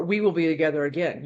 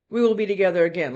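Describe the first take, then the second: First: Lower, ominous second reading; other, unsweet meaning. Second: Sweet promise, demonstrated. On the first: Reader showing the card's second meaning, unsweet. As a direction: drop it lower, the sweetness gone. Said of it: "it can have two meanings". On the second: Reader showing one of two meanings of a card, sweet. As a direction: say it as a sweet reassurance. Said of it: "like a sweet thing". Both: Shown as a demonstration.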